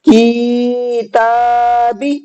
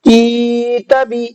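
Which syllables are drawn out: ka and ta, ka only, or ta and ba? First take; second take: ka and ta; ka only. First: The ka and ta syllables are drawn out. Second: The ka syllable is drawn out, ta short. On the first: "काफ और ता दोनों खींच गए और बा नहीं खींचा" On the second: "काफ खींच गया, ता नहीं खींचा"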